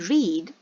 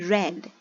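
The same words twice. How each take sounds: First: Read is not said like the color red. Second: Read is said like the color red. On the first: It is the base form. "We say read in the first form" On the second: It is the past simple form. "like the color"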